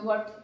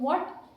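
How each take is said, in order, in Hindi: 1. यह शब्द सपाट बोला गया है, प्रश्न की तरह नहीं। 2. यह शब्द प्रश्नवाचक उठान के साथ बोला गया है। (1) "तो वो उसको यूँ लगेगा कि पता नहीं किस सेंस में बोला" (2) "इस प्रश्न की व्हाट"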